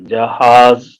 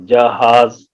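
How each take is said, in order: No difference in how they are said.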